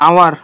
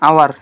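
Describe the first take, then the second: The two takes are said the same way.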